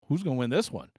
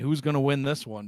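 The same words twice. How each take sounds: First: It sounds excited and impressed. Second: It sounds mocking and unimpressed. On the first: Both teams are good, so the outcome is uncertain. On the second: Neither team seems likely to win much.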